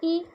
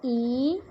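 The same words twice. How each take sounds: First: "ई" said short, as a brief i; "ई" cut short for teaching; short vowel. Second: "ई" held for double length; a long, sustained "ई"; long vowel. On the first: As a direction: keep "ई" to one quick beat. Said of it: "बहुत ही कम समय में उच्चारण". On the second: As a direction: stretch "ई" into a long ee. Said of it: "दो गुना मतलब double time". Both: Shown as a demonstration.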